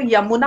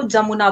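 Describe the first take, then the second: First: यमुना with an initial Y sound; Hindi pronunciation. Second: जमुना with an initial J sound; Urdu pronunciation. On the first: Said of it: "Hindi में अगर बोले तो". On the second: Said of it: "Urdu में लोग बात करते हैं उसको". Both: Shown as a demonstration.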